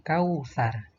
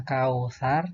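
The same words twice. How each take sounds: First: "kausar" as the careful version, falling at the end; corrected reading. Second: "kausar" as the mistaken version, ending on a rise; wrong reading. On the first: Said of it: "tapi kausar". ("kausar" yang benar, nada akhir turun) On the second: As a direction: show the faulty "kausar", left hanging upward. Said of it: "bukan kausar, tapi kausar". ("kausar" keliru, nada akhir naik) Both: Shown as a demonstration.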